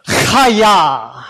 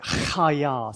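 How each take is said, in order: First: Chaya shouted with a spitting throaty ch; dramatic guttural. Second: Chaya with a throaty ch; guttural ch. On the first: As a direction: project Chaya, spit the ch loudly. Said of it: "say this as dramatically as you possibly can". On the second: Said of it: "let me explain how to pronounce it". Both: Shown as a demonstration.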